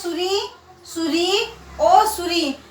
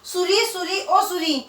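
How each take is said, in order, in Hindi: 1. शब्द छोटे पुकार जैसे विरामों से अलग किए गए हैं। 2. शब्द बिना विराम के एक साथ जुड़े हुए बोले गए हैं। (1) "इसमें भी पुकार ही रहा है" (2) "इसमें किसी प्रकार का चिन्ह नहीं है, तो बोलने पे क्या अजीब सा नहीं लग रहा है आपको?"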